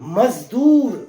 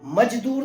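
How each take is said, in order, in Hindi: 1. बीच का व्यंजन z ध्वनि है। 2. बीच का व्यंजन j ध्वनि है।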